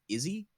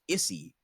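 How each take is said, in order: First: The middle consonant is a buzzing z sound. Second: The middle consonant is a hissing s sound. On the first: "I'm gonna pronounce it Izzy" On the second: "it should be pronounced Issy"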